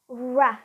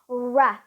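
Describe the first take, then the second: First: The r sound is released into a vowel. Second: The same.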